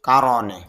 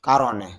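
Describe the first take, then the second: Both takes have the same delivery.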